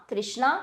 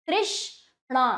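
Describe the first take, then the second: First: Said in the usual way. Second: तृष्णा in two parts, तृष्... णा; broken into syllables. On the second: Shown as a demonstration. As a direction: leave a gap before णा in तृष्णा. (तृष्णा में णा से पहले रुककर) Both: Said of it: "तोड़कर पहले".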